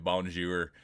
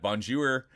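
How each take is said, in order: First: Said in the usual way. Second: Higher, louder "Bonjour"; "Bonjour" lifted for comic effect; playful bonjour greeting. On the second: Shown as a demonstration. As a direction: toss out "Bonjour" as a jokey hello, pitched up. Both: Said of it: "I always say it like that".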